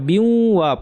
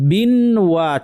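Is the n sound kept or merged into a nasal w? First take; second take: merged; kept. First: The n merges into a nasalized w sound. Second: The n sound is kept before wa. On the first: "বিন ওয়াকে আমরা বিউ ওয়া পড়বো, বিউ একটু নাকি করে পড়বো" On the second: "বিন ওয়া ছিল"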